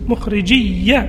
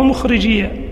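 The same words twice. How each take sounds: First: The final ya sound is doubled and held. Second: The final ya sound is single and light. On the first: "بتشديد الياء" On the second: "ويجوز التخفيف"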